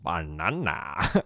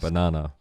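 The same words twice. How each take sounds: First: The word is said with lively, full energy. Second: The word is said flatly, without energy. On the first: "Let me do that again" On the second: "my heart wasn't in that"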